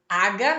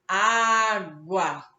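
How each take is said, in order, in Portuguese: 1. O g é pronunciado sem um som de w depois. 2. O g é seguido de um som de w claro. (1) "Água não" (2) "a gente sempre diz falando o som do U"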